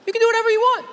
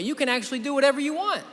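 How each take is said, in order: First: Much higher, louder mock-excited "do whatever you want"; a teasing, over-the-top burst of excitement; hyped exclamation. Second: Said in the usual way. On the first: Shown as a demonstration. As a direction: sell it like an overexcited cheerleader. Repeats the line, then hypes it.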